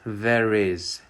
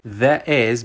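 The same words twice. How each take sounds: First: An r sound links the two words. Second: The words are said without a linking r.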